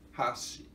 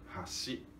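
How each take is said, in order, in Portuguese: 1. A altura vai de agudo para grave. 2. A altura vai de grave para agudo. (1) "E agudo, grave" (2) "ponte e hashi, eh, grave, agudo"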